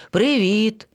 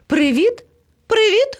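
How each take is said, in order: First: Said in the usual way. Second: High, rising hello; bright-pitched call, climbing higher. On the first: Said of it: "відповіло левеня". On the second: A narrator's reading. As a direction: hail friends from a distance. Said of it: "гукнув до них".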